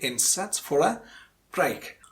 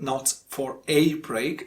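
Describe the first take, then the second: First: The word 'a' is said in its reduced form. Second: The word 'a' is said in its full form. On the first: The speaker calls it right. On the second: The speaker calls it wrong.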